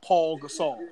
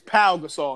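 First: The first name ends with an L sound. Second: The first name ends without an L sound. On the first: The speaker calls it wrong. "not Paul Gasol" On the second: The speaker calls it right. "It is Pau Gasol"

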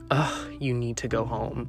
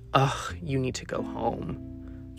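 First: It is said in a plain, not exhausted way. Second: It is said in a bewildered, exhausted way.

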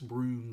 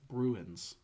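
First: The word is said as one syllable, broons. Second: The word is said with two syllables. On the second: "How do you say it?"

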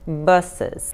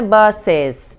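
First: The second-syllable vowel is nearly silent. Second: The second-syllable vowel is fully pronounced. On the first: The speaker calls it right. "O E quase que não pronuncia, como se fosse um S atropeladinho" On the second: The speaker calls it wrong. "o SE não é buses, não"

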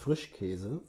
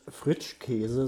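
First: The consonant before 'käse' is a 'sch' sound. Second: The consonant before 'käse' is a 'tsch' sound. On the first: The speaker calls it right. "sondern du sagst Frischkäse" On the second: The speaker calls it wrong. "du sagst ja auch nicht Fritschkäse"

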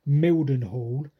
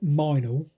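First: The name is said with all three syllables. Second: The name is squeezed into two short syllables. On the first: This is how it reads on a map. "now you look at a map and you pronounce it Mildenhall" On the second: This is how local people say it. "apparently all the yokels pronounce it Minal"

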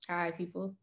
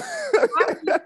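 First: It is said in a flat, nonchalant way. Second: It is said in a lively, enthusiastic way.

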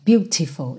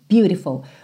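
First: It is said without an American accent. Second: It is said with an American accent. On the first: "não fica beautiful" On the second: "o beautiful tá bem americano"

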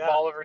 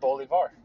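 First: It is said the local Tennessee way. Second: It is said the South American way. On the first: "There's a Bolivar, Tennessee, as everybody says it" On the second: "South America. And it's Bolivar"

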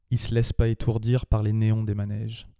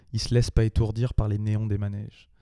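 The two takes are said the same way.

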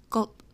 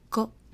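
First: The word ends with a cut-off unreleased t stop. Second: The same.

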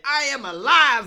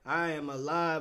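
First: It is said with strong, punchy conviction. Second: It is said in a cool, laid-back way. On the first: The singer truly believes what he says. The speaker calls it right. "you got to punch them in the mouth with it" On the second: The singer is trying to sound stylish. The speaker calls it wrong. "trying to be all smooth and swagged out with it"

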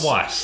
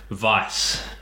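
First: The word is pronounced the English way. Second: The word is pronounced the German way. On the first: The speaker calls it wrong. "Not Weiss, like I've always pronounced it" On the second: The speaker calls it right. "which makes sense because it's German"

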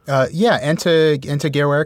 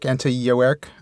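First: The second word begins with a hard G sound. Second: The second word begins with a Y sound. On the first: The speaker calls it wrong. "I botched that" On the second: The speaker calls it right. "I think the G is pronounced as a Y"

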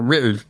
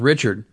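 First: The name is pronounced in a distorted, imitated way. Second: The name is pronounced in the ordinary way. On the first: This is how the man himself said his name. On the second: This is the man's actual name.

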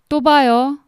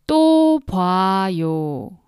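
First: The phrase is spoken quickly. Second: The phrase is spoken slowly. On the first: "Now, faster, three times" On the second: "Now slowly, three times"

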